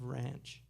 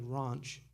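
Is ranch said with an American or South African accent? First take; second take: American; South African. First: It is said with an American accent. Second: It is said with a South African accent. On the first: "instead of ranch" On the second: "South Africans, they do all this. They say, say things like ranch"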